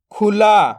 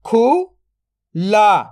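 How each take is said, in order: First: Said in the usual way. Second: "खुला" split into खु, then ला, very slow; drawn-out breakdown of "खुला"; syllable by syllable. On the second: Shown as a demonstration. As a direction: sound out खु ... ला with a long gap. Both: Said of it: "तो मिलके बन जाएगा".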